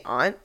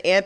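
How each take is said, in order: First: Aunt said with a broad ah, like ahnt; aunt rhyming with font. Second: Aunt said with a flat a, like ant; aunt rhyming with can't. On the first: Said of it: "but now I say aunt". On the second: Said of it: "She keeps saying aunt". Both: Shown as a demonstration.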